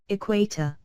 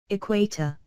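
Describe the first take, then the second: Both takes have the same delivery.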